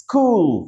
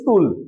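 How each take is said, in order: First: It begins with a sharp s sound. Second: It begins with a soft sh sound. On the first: The speaker calls it right. "এই যে সাউন্ডটা প্রথমে করে কুল হয়ে যাবে" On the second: The speaker calls it wrong. "তাহলে কি তার উচ্চারণ সঠিক হচ্ছিল? না।"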